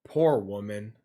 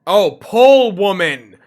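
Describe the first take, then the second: First: "poor woman" low and soft, with an R in poor; misheard phrase. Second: "pull" with an L, loud and drawn out; sudden realization. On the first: Retold or imitated. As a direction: say "poor woman" as a quiet lament. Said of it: "The accent threw me off". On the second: Real, not acted. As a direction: loudly correct yourself on "pull woman", slowly. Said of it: "The accent kind of".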